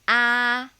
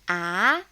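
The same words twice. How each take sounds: First: The syllable is said in the first tone. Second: The syllable is said in the second tone. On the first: "Upper tone" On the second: "Doubting tone"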